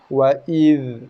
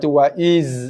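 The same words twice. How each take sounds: First: The final dh is soft with no bounce. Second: The final consonant is a buzzing z sound. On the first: The speaker calls it right. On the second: The speaker calls it wrong.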